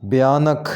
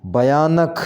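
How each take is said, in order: First: भयानक with its first syllable squeezed to 'bhi'; mispronounced first vowel. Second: भयानक with a clear 'a' in the first syllable; correct pronunciation. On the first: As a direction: say भयानक as 'bhi-yaa-nak'. (भयानक को 'भियानक' जैसा बोलें) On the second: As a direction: say भयानक as 'bha-yaa-nak'. (भयानक के 'भ' पर ज़बर बोलें) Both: Shown as a demonstration. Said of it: "सही तलफ़ुज़ इसका होगा".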